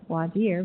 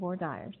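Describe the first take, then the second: First: It is said with a French pronunciation. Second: It is said with a Texan English pronunciation. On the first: "they correctly pronounce voir dire" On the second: "in Texas we pronounce them voir dire"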